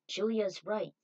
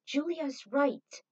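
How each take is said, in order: First: Said in the usual way. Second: Slow, higher, louder emphatic "Julia's right"; emphatic agreement. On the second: Acted. Someone agrees with Julia, emphatic. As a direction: insist on it, stretching "Julia's right".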